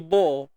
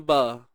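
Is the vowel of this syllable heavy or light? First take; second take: heavy; light. First: The syllable is thick, with a dark vowel. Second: The syllable is light, with a clear vowel. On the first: The speaker calls it wrong. "kalau kita tebalkan ba, dia jadi bo" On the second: The speaker calls it right. "bunyi biasa yang sepatutnya ba"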